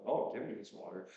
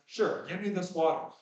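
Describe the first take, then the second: First: It is said in a sarcastic tone. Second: It is said in a sincere, eager tone.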